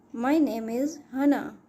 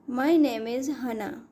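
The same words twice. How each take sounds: The two takes are said the same way.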